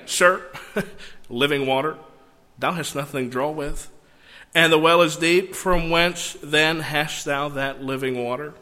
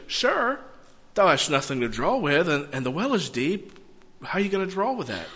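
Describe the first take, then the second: First: Scoffing chuckle after "Sir", then measured disbelief; slightly sarcastic. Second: Mildly puzzled, quickening at the end; sincere puzzlement. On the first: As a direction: say it with a twinge of sarcasm. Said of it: "she's being just slightly sarcastic". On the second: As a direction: ask it as an honest, puzzled question. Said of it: "she could say it one of two ways". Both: Shown as a demonstration.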